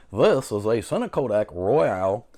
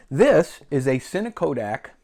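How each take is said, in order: First: Said in the usual way. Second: Glitchy robotic-sounding voice; robot voice, like a choppy connection. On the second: Real, not acted. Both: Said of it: "I sound like a robot now".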